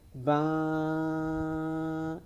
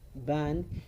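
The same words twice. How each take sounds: First: The final n is lengthened and nasalized. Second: The final n is short and clear. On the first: The speaker calls it wrong. "You don't have to say ban" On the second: The speaker calls it right. "Just say your ban with clarity"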